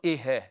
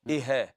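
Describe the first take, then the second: Both takes have the same delivery.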